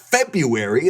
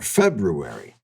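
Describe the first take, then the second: First: The first R is dropped. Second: The first R is clearly pronounced. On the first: The speaker calls it wrong. "It's the correct pronunciation, not February" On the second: The speaker calls it right. "There's an R there"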